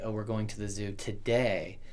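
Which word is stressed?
today. The stress is on the word today.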